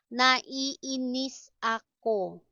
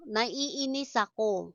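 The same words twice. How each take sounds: First: Each syllable held separately; slow, careful syllable-by-syllable reading; slow teaching model. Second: Said in the usual way. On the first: Shown as a demonstration. Teacher models an annoyance phrase for learners, slowly.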